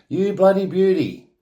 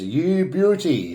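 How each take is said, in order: First: Aussie cheer. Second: Aussie slang. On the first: Explaining slang to viewers, a pitched-up Aussie cheer. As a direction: cheer it like a mate winning. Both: Shown as a demonstration. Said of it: "most often explained as".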